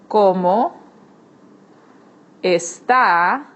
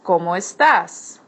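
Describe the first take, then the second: First: "está" ends open on the vowel with no S; formal está. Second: "¿Cómo estás?" with the final S of "estás" clearly sounded; informal estás. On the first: Teacher to students, formal greeting ending on the vowel, no S. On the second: Teacher to students, informal Spanish greeting with the S sounded. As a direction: say "estás" ending on a crisp S. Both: Shown as a demonstration. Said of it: "it's está and not estás".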